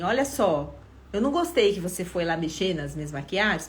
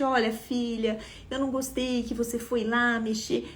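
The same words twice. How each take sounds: First: A mildly reproachful version of the scolding; reproachful demo. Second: Softer, gentle version of the same reproach. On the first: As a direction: show the disapproving way to say it. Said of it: "Se eu chegasse falando assim". (versão levemente reprovadora) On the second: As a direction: say it kindly, quieter. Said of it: "mesmo que eu falasse gentilmente". (falando com gentileza, mais baixo) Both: Shown as a demonstration.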